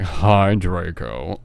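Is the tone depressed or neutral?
depressed. It is said in a gloomy, depressed tone.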